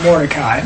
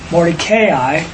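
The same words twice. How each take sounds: First: The name is said with three syllables. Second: The name is said with four syllables. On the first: The speaker calls it wrong. "it's not Mordecai" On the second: The speaker calls it right. "it's really four syllables"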